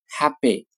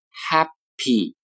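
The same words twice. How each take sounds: First: The middle consonant sounds like a voiced b. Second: The middle consonant is a clear, voiceless p. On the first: "常常的会读成 happy happy" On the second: "下面一个单词 happy"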